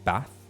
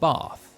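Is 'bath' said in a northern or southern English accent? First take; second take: northern; southern. First: Said in a northern English accent. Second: Said in a southern English accent. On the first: "in the north they say" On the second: "in the south they say"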